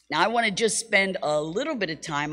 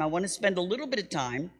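First: Said in the usual way. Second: Fast whisper of "I wanna spend a little bit of time"; hushed, quick, unvoiced repeat; whispered aside. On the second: Shown as a demonstration. Same words repeated as whisper.

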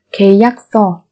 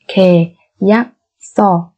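First: Said in the usual way. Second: Slow, separated syllables for learners; careful teacher's slow model. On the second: Shown as a demonstration. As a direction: spell it out slowly, beat by beat.

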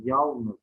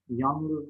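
First: Said in the usual way. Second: "yalnız" with n before l, yanlız; swapped l and n in "yalnız"; misspelt form. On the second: Shown as a demonstration. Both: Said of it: "yalnız değil".

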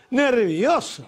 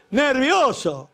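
First: Mocking echo. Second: Nervioso stretched very slow, high and loud; drawn-out mock. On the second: Comic repeating wife's excuse, slow loud mocking. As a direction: drag out Nervioso in disbelief. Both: Shown as a demonstration.

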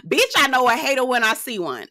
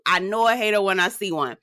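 First: Laughing repeat. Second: Said in the usual way. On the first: Real, not acted. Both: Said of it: "I really do".

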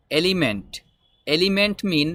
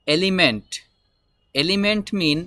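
No difference in how they are said.

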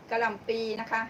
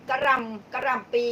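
First: Said in the usual way. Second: "กระหล่ำปี" slowly, each syllable spelled out; careful naming. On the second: Shown as a demonstration. Naming vegetables for live viewers, slow careful "กระหล่ำปี".

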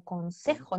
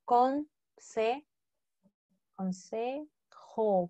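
First: Said in the usual way. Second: Consejo drawn out slowly, syllable by syllable; slow spelled-out word. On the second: Shown as a demonstration. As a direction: stretch out consejo for the class. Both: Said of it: "¿Qué era advice?".

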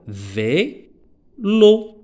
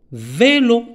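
First: "Vélo" split vé, long pause, lo; syllable by syllable. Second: Said in the usual way. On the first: Shown as a demonstration. Teacher counting two syllables for pupils, "Vélo" pulled apart as vé... lo. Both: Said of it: "on a deux syllabes".

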